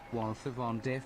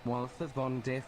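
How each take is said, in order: Both takes have the same delivery.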